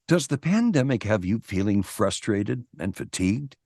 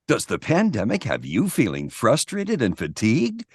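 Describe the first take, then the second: First: It is read in a sad, dour tone. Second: It is read in a happy, upbeat tone.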